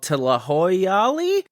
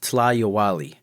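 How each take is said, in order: First: The middle sounds like 'hoy' before 'ali'. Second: The middle sounds like 'yow' before 'ali'. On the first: The speaker calls it wrong. "I butchered the hell out of that" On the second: The speaker calls it right. "Properly pronounced"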